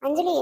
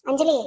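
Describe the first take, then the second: No difference in how they are said.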